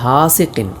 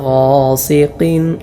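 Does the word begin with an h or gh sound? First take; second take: h; gh. First: The word begins with a breathy h sound. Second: The word begins with a throaty gh sound. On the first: The speaker calls it wrong. "ഹാ ഇങ്ങനെയൊന്നും ഉച്ചരിക്കാൻ പാടില്ല" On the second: The speaker calls it right. "ഗൈൻ ഹാ തൊണ്ടയുടെ മേലേയറ്റം അങ്ങനെ തന്നെ ഉച്ചരിക്കണം"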